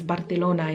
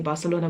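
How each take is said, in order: First: It is said the Spanish way, not South African. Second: It is said the usual South African way.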